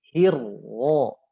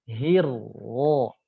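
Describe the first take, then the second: Both takes have the same delivery.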